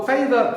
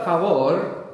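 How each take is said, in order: First: "favor" the English way, FAY-vuh; English pronunciation. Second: "favor" the Spanish way, fa-VOR; Spanish pronunciation. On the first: Teacher showing the pattern, English pronunciation of "favor". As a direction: say "favor" as English, stressed on the first syllable. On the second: Teacher showing the pattern, Spanish pronunciation of "favor". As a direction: say "favor" as Spanish, stress on the last syllable. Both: Shown as a demonstration. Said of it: "we've actually found another pattern here".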